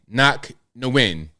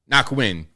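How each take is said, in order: First: The surname is said as two syllables. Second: The surname is said as one syllable. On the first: "You can say no win" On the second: "I normally say win"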